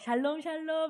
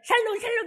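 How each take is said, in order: First: The greeting is said warmly with a lilting rhythm. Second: The greeting is said curtly, like a harsh demand. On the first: It is a sincere wish of peace to the other person. The speaker calls it right. "이게 이렇게 해야 되는 거죠. ... 이래야지" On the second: It sounds like demanding money from someone. The speaker calls it wrong. "이렇게 하면 돈 내놔 돈 내놔 이렇게 하면 안 되죠"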